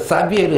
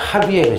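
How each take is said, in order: First: The name begins with an s sound. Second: The name begins with an h sound. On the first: This is the form used in older textbooks. "한 이 년 전까지는 사비에르 신부님이 나오는데" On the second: This is the current form based on the original language. "지금은 사가 아니라 하비에르"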